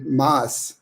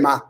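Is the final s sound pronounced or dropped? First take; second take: pronounced; dropped. First: The word ends with an s sound. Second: The word ends without the s sound. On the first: "they don't say mas" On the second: "they just say quiere ma"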